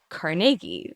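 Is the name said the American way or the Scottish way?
Scottish. The name is said the Scottish way. "having lived in Scotland, they say Carnegie there"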